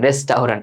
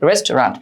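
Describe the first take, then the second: First: It is said in spelled-out parts with a tau sound. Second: It is said smoothly without a separate tau sound. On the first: The speaker calls it wrong. "এইভাবে পড়তাম" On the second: The speaker calls it right. "একদম সঠিক উচ্চারণ যেটা রেস্টুরেন্ট"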